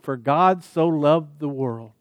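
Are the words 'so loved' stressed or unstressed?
unstressed. 'So loved' carries no special stress.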